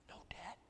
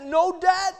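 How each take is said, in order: First: No debt, whispered with no voice and very soft. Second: No debt, shouted high and loud like a stamp coming down; stamped proclamation. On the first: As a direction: let it hang as an awed whisper. Whispered echo of the shout. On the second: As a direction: bang it out as a final verdict. Stamping forgiveness, then whispered echo. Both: Acted.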